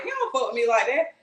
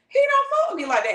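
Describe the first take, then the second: First: Said in the usual way. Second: Much higher and louder, whining on fuck; "fuck" hit high and loud, voice jumping up; high pitched whine. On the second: Acted. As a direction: repeat it in a high wail of disbelief. You doubting, said twice.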